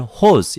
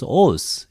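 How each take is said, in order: First: The word begins with an h sound. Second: The word begins directly with the vowel. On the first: This is the older, church-style reading. "hos in seminaries" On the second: This is the modern Greek reading. "we pronounce os in modern Greek"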